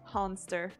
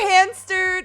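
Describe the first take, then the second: First: The first vowel sounds like the a in father. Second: The first vowel sounds like the a in cat. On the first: The speaker calls it right. "wife would prefer to be called Honster" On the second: The speaker calls it wrong. "instead of Hanster"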